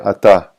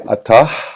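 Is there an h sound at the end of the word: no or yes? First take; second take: no; yes. First: The word ends on a plain vowel sound. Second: The word ends with an audible h sound. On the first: The speaker calls it right. "you don't pronounce the the final h" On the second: The speaker calls it wrong. "You don't say atah"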